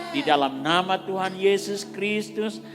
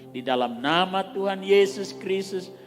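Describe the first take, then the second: No difference in how they are said.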